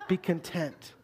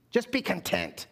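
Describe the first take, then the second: First: Mock mom. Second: A hint of a scolding mom; mildly stern, motherly; mom's scolding. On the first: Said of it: "your mom says". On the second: Mom telling a picky child at dinner, lightly stern. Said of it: "something your mom says".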